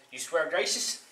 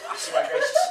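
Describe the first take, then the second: First: Said in the usual way. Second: Very high comic squeak; squealed oath. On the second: Acted. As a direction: squeak the vow in falsetto. Devil squeals oath again.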